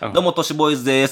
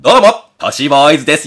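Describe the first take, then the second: First: It is said casually, like everyday speech. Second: It is said theatrically, exaggerated and overly clear. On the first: An ordinary greeting as someone normally says it. "例えば岸本さんが、" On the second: A greeting performed for a stage audience. "だと舞台だと、"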